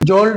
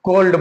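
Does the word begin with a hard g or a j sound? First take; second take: j sound; hard g. First: The word begins with a j sound. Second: The word begins with a hard g sound. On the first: The speaker calls it wrong. "जोल्ड नहीं बोलेंगे" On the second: The speaker calls it right. "बल्कि गोल्ड बोलेंगे"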